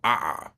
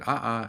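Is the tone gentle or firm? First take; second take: firm; gentle. First: It is said sharply and firmly. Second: It is said softly and gently.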